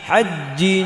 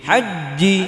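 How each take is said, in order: No difference in how they are said.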